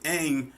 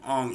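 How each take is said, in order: First: The vowel sounds like the 'a' in cat. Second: The vowel sounds like the 'a' in father. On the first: This is how the show says the name. The speaker calls it right. "call this kid Aang every episode" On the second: This is how the film says the name. The speaker calls it wrong. "them call him Ong"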